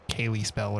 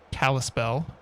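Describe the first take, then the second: First: The first part sounds like 'Kaylee'. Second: The first part sounds like 'Kal'. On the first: The speaker calls it wrong. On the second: The speaker calls it right.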